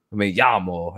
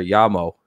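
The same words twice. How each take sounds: First: ME LLAMO slowly, in an American accent; unaltered American-accented Spanish. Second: LLAMO slowly, with a slight Spanish accent; mock-correct Spanish-accented LLAMO; put-on Spanish accent. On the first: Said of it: "very American accent trying to speak foreign languages". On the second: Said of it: "say it with an accent". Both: Shown as a demonstration.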